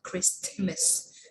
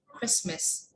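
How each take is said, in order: First: The T sound is pronounced. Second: The T sound is left out. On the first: The speaker calls it wrong. "not Christmas" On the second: The speaker calls it right. "There is not T"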